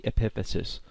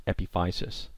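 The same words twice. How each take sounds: First: "epiphysis" as eh-PIF-uh-sis; short-i pronunciation. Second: "epiphysis" as eh-pih-FY-sis; alternative pronunciation. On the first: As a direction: stress the second syllable of "epiphysis", short i as in "pif". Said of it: "or sometimes pronounced epiphysis". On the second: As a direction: stress a long i in "epiphysis", rhyming the third syllable with "fie". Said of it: "or sometimes pronounced". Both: Shown as a demonstration.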